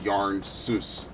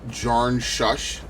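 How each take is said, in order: First: The name begins with a Y sound. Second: The name begins with a J sound. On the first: This is how the name is actually said. "it's pronounced Yarn Sus" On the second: This is how the spelling looks. "it's spelled like Jarn Shush"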